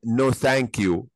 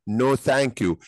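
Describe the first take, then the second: First: Slow, carefully spelled-out no thank you; slow demo. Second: Said in the usual way. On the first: Shown as a demonstration. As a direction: say "no thank you" slowly, word by word for the class. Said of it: "يبقى أقدر أقول لها هنا". (ببطء وبوضوح) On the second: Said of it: "يبقى أقدر أقول no thank you".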